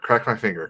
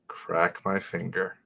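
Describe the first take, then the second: First: It is said fast. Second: It is said slowly.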